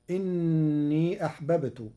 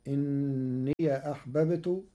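First: Said in the usual way. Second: إني said as inniya, the final ya carrying fatha; Warsh open ya. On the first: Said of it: "بفتح ياء الإضافة". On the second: Shown as a demonstration. Teacher giving Warsh's إني with fatha on the ya. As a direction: recite إني with an open ya before أحببت. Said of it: "فتصير".

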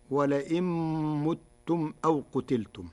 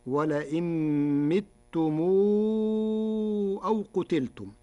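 First: Said in the usual way. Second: متم read as mitum, i on the first m; Warsh pronunciation. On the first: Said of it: "قرأ ورش كلمتي متم". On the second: Shown as a demonstration. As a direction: kasra on the first meem of متم. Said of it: "بكسر الميم الأولى فيهما".

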